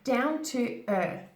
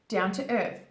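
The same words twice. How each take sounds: First: It is said slowly with an exaggerated th. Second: It is said quickly at a natural pace. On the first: "Exaggerate it in the beginning until you master it" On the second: "Even when I do say this really fast"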